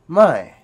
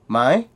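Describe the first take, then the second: First: The word is said on a falling tone. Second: The word is said on a high tone. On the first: It means no or not. "a falling tone, which means no or not" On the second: It marks a question. "a question word, which is a high tone"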